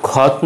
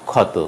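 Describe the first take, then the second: First: ক্ষত ending on bare t; dropped final vowel. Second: ক্ষত ending in "o"; ক্ষত in two syllables; final vowel sounded. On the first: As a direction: say ক্ষত as "khawt". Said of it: "নয়". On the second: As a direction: say ক্ষত as "khaw-to". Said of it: "উচ্চারণ হবে". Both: Shown as a demonstration.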